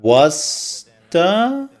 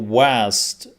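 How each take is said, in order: First: It is said as one word ending in an 'ah' vowel. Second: It is said as one word with no final vowel. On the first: The speaker calls it wrong. "they're adding an A to it, which is wrong" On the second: The speaker calls it right. "or WASD if you want to be"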